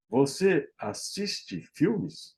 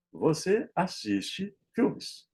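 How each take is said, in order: First: Slow "Você assiste filmes?" with a questioning tune; question intonation. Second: Said in the usual way. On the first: Shown as a demonstration. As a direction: ask "Você assiste filmes?" slowly, lifting the pitch for a question. ("Você assiste filmes?" devagar, em tom de pergunta) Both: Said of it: "Na pergunta".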